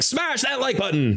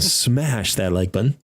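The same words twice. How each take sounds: First: It is said in a plain, ordinary voice. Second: It is said in a low, sultry voice. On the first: The speaker calls it wrong. "that's a weird, that's not our channel" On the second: The speaker calls it right. "you have to say it in a sultry voice"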